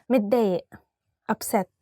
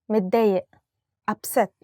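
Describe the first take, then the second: The two takes are said the same way.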